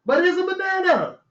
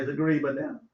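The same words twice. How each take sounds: First: Raised voice on "But it's a banana"; "But it's a banana" pitched up and firm; insisting "But it's a banana", higher; insistent. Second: Soft, low correction; hushed mocking correction. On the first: Shown as a demonstration. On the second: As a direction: say it under your breath, lower. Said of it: "you ain't said it right".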